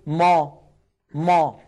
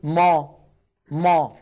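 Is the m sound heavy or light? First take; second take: heavy; heavy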